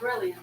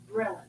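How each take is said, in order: First: It is said with an extra 'ee' sound. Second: It is said without the extra 'ee' sound. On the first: The speaker calls it wrong. "It's not brilliant" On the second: The speaker calls it right. "There's not that second eye there"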